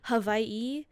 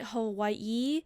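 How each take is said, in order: First: The middle consonant is a V sound. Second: The middle consonant is a W sound. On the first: The speaker calls it right. "with a V sound instead of the W" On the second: The speaker calls it wrong. "more on the emphasis of the last part of the word"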